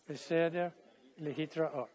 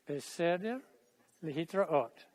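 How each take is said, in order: Both takes have the same delivery.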